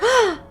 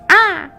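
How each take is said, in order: First: It is a short, breathy gasp of surprise. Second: It is a harsh squawk like a crow.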